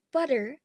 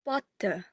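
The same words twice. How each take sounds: First: The final r sound is pronounced. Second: The final r sound is silent. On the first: "in General American, the r sound is rhotic" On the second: "it is silent, and it is ignored"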